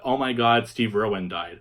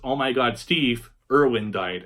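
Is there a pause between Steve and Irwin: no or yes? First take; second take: no; yes. First: Steve Irwin is said as one name. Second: There is a pause after Steve.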